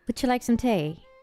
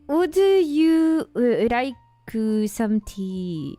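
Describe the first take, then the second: First: It is said in a New Zealand accent. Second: It is said in a Japanese accent.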